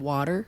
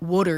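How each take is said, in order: First: Water is said with a standard accent. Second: Water is said with a Philadelphia accent. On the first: This is how people elsewhere say it. "instead of water" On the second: This is how people in Philadelphia say it. "In Philly, they say water"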